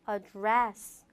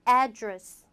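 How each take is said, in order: First: The stress is on the second syllable. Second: The stress is on the first syllable. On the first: It is used as a verb. "동사일 때는 ... 뒤로 민다" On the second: It is used as a noun. "명사일 때는"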